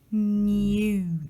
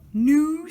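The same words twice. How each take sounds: First: It is said in a British accent. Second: It is said in an American accent. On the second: "ça c'est américain"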